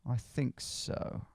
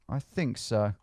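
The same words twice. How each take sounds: First: Slow breathy whisper to self. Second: Said in the usual way. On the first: Real, not acted. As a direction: whisper it slowly under your breath. Whispered, then said aloud.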